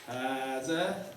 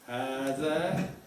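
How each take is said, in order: No difference in how they are said.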